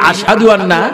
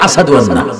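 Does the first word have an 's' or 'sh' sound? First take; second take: sh; s. First: The first word has a 'sh' sound. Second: The first word has an 's' sound. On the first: This is the correct call to prayer. The speaker calls it right. "তিনি আসাদু আন্না আজান দিতে পারতেন না" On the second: This is how the injured tongue could say it. The speaker calls it wrong. "বলে"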